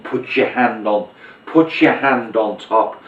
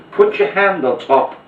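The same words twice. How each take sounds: First: Slow, drawn-out instruction; slow patter. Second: Higher, louder, pushing the line at them; emphatic patter. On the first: Magician stalling the spectator during the top change, slow. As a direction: stretch it out to cover the move. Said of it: "you might wanna do the top change as you're saying". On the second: Magician to spectator, insistent higher louder patter. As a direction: sell the line to steer their eyes. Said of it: "I'm emphasizing the jack here". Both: Shown as a demonstration.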